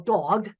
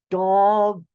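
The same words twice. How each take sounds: First: The word is said at normal speed. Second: The word is said slowly, each sound drawn out.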